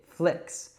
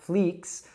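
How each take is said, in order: First: The vowel is a short i sound. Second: The vowel is a long ee sound. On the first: The speaker calls it right. "it's I, flicks" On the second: The speaker calls it wrong. "it's not fleeks"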